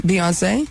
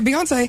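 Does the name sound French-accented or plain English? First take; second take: French-accented; plain English. First: The name is said with a French-sounding accent. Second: The name is said in a plainer English way. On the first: The speaker calls it wrong. "all of a sudden you're like fresh off the Air France" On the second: The speaker calls it right. "that was a little better that time"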